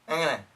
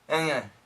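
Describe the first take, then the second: First: It is squeezed together and said very fast. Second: It is squeezed together and said very fast.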